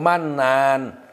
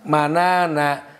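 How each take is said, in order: First: The word ends on a bare n sound. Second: The word ends with an added vowel after n. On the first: The speaker calls it right. "yang bagus itu disukunkan" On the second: The speaker calls it wrong. "Jarang dibaca"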